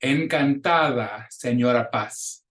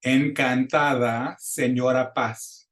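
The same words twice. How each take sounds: First: Slow, careful Spanish with pure A; "Encantada" stretched, each A open ah; slow model line. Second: Slowed repeat with a rise on "Encantada"; "Encantada, señora Paz" slow, pure open vowels. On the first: Teacher models a greeting for students to repeat, slow and clear. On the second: Teacher repeats for students to echo, slow and clear. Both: Shown as a demonstration. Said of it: "have you repeat it after me".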